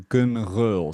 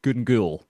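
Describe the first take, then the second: First: The second syllable starts with a throaty sound. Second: The second syllable starts with a plain g. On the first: It is the authentic Gaelic sound. "the authentic way, the sort of back of your throat to make the start of that second word" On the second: It is how many local people say it. "that's how a lot of Glaswegians will say it"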